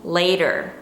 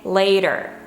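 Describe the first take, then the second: The two takes are said the same way.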